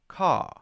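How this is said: The R at the end is weak and flat. "a British person might say"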